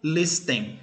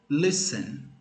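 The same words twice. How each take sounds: First: The T sound is pronounced in the middle. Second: The T sound is left out entirely. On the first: The speaker calls it wrong. "A gente não falou listen" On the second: The speaker calls it right. "aquele T não foi pronunciado"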